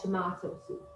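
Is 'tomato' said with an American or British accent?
British. Tomato is said with a British accent.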